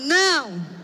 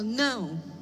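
First: It is said forcefully and angrily. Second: It is said calmly, without force.

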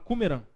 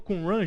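First: It is said with an Arabic accent. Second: It is said with a Portuguese accent.

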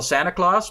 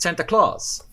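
First: It is said in an American accent. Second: It is said in an Irish accent. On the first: "Amerikanen zeggen meestal Santa Claus" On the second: "maar zij zegt Santa Claus"

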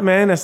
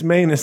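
First: The word does not rhyme with anus. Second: The word rhymes with anus. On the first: The speaker calls it wrong. "It's not manus like the hands of fate" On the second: The speaker calls it right. "It's manus like my anus"

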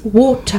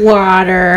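First: It is said in a British accent. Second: It is said in an American accent. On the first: The speaker calls it right. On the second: The speaker calls it wrong.

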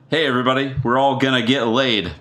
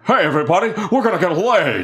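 First: It is said in the speaker's normal voice. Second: It is said in a put-on character voice.

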